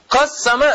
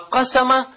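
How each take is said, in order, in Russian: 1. Средний согласный долгий, удвоенный. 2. Средний согласный короткий, одиночный. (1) "почему ты говоришь «кассама» поделил?" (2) "а «кассама» – «ашхара»"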